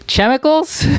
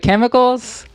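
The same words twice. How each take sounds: First: It is pronounced letter by letter, as spelled. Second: It is pronounced the usual, standard way. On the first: The speaker calls it wrong. "the way they're spelled" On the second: The speaker calls it right. "the way they're supposed to be said"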